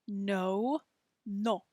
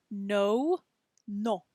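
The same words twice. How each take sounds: The two takes are said the same way.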